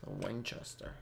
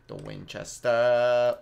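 First: Murmured, soft and low; quiet naming. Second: WINCHESTER stretched slowly, last syllable held out loud; drawn-out naming. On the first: Gamer noting a weapon to himself, quiet naming. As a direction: say it softly to yourself. Says weapon name two ways. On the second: Gamer repeating the weapon name with relish, drawn-out naming. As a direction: savor Winchester, dragging out its ending. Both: Pretend.

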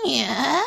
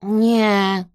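First: Higher, easygoing bird answer; carefree cooing. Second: Loud, grumpy refusal; Kresek grunting. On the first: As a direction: coo it back without a care. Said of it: "zagruchał beztrosko ptak". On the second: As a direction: grumble it out at usual pitch. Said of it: "burknął Kresek". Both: A narrator's reading.

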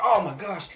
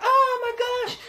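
First: Said in the usual way. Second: High, loud startled "oh my gosh"; shocked gasp. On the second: Retold or imitated. Bystander struck by the clipper guard, high startled cry. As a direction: yelp it like someone just got hit.

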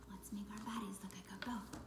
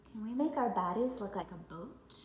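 First: Soft whispered repeat; whispering. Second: Said in the usual way. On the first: Acted. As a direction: whisper it gently to the kids.

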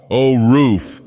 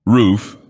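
First: Louder, joyful cry of delight; rapturous awakened cry; rapture. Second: A puzzled, wondering repeat; questioningly. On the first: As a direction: greet the sunlight like a gift. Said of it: "in a voice of rapture". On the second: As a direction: ask it as if unsure they're gone. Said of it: "once more questioningly". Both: Acted.

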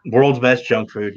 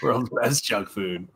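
First: World's best junk food drawn out slowly; a fond, slow catchphrase; slow, savoring. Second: World's best junk food repeated slowly and softly; a softer, slower echo of the slogan. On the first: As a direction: lean into each word like a slogan. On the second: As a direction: savor the catchphrase quietly. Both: Retold or imitated. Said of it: "that's what she calls it".

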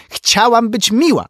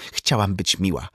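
First: Very high, loud repeated protest; anguished shout. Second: Said in the usual way. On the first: A narrator's reading. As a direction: cry it out, aggrieved. Katrin repeats it, outburst peaking.

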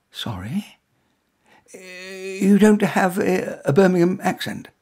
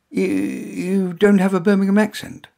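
First: Higher, lightly voiced woman echoing in disbelief; a hint of a baffled lady repeating his words; puzzled woman. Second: Flustered blurt. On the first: A narrator's reading. Woman repeats the stranger's odd question, lightly puzzled. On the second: Acted.

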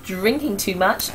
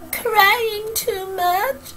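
First: Said in the usual way. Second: High, slow, whimpering mock sob; mock crying. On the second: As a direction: whine it out like fake tears. Acts out crying while listing.

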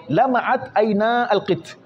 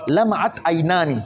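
First: عينا ending on long aa, then القط; nun dropped. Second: عينان ending in a full aani; nun kept. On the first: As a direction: say 'ayna with no final ni. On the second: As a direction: say 'aynaani with the n sounded. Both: Shown as a demonstration. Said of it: "هذه النون نحذف".

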